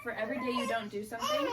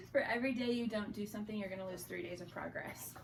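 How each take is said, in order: First: Words breaking into a laugh; half-laughing, half-crying the quote; laughing through it. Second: Said in the usual way. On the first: Real, not acted. Laughing while quoting the therapist's advice to a friend.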